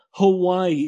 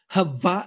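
First: Said in the usual way. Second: Hawaii said slowly as ha-VAI-ee. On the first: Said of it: "It's not Hawaii". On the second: Retold or imitated. Retelling cousin back from holiday, Hawaii as ha-VAI-ee. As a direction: imitate a pedant, Hawaii with V for W. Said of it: "he's like, It's not Hawaii".

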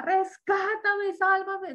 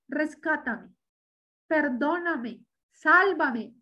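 First: Retold desperate cry. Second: Said in the usual way. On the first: Retelling how he cried out to Christ, imitated yelling. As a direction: stretch out a mock cry for rescue. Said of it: "es que él gritaba". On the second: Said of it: "no una oración ahí".

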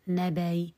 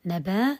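First: نبي with the hamza softened into a faint i; tashil with rawm. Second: نبا ending in a long open aa; ibdal by analogy. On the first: Teacher shows second analogical form, softened hamza with faint i. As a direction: say نبي as "naba-i", no hard glottal stop. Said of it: "وجهان بالقياس". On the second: Teacher counts the forms by analogy, hamza becomes long aa. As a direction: say نبا as "nabaa", hamza turned into alif. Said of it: "بالقياس". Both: Shown as a demonstration.

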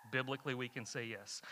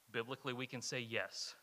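First: "Biblically" leaned on at the start, still quiet; ground the answer in "Biblically"; stress on biblically. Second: "say" leaned on, falling to a soft low close; quiet and low, hitting "say" in "Biblically, we can say yes"; stress on say. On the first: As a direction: open with weight on "Biblically", then settle. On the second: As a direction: land the answer on "say". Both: Shown as a demonstration.

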